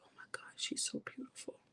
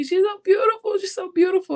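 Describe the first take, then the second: First: Barely voiced, hushed whisper; whispered through tears. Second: Higher, louder tearful wail; crying. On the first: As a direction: whisper it, overcome at first sight. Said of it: "I'm just in tears". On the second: Retold or imitated. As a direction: let it break out as a cry, over and over. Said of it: "And I'm just crying".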